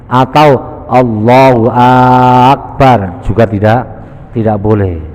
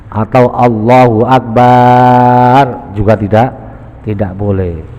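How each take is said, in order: The two takes are said the same way.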